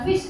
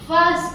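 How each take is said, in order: First: The vowel sounds like a short 'ih'. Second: The vowel sounds like 'uh'. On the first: The speaker calls it wrong. "ಫಿಸ್ಟ್ ಅಂತ ಹೇಳ್ತೀವೇನು" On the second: The speaker calls it right. "ಫಸ್ಟ್ ಅಂತ ಹೇಳ್ತೀವಿ"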